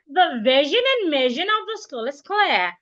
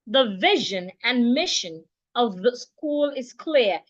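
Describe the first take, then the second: First: It is said in a put-on, affected voice. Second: It is said in a natural, everyday voice. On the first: The speaker calls it wrong. "I don't have to talk through my nails" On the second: The speaker calls it right. "use your normal voice"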